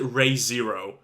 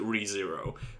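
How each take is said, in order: First: The first syllable sounds like 'ray'. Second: The first syllable sounds like 'ree'. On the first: The speaker calls it wrong. "you you still pronounce it Ray Zero" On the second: The speaker calls it right. "Even the voice actors for the show pronounce it Re Zero"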